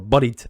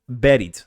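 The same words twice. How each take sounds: First: It is said in a Scottish accent. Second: It is said in a plain, non-Scottish accent.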